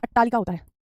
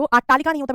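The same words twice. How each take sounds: First: अट्टालिका with short a at the start; correct pronunciation. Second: अट्टालिका with long aa at the start; wrong pronunciation. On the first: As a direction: say अट्टालिका as "at-taalika". (सही उच्चारण, अट्टालिका में छोटा अ) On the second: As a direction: say अट्टालिका as "aat-taalika". (गलत उच्चारण, अट्टालिका को आट्टालिका बोलें) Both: Shown as a demonstration.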